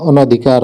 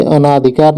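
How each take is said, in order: First: अनधिकार with short A, a-na-dhikaar; correct pronunciation. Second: अनाधिकार with long A, a-naa-dhikaar; wrong pronunciation. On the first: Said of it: "अनधिकार होता है". (अनधिकार में 'न' छोटा बोलें) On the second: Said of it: "अनाधिकार नहीं होता है". (अनाधिकार में 'ना' लंबा बोलें) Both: Shown as a demonstration.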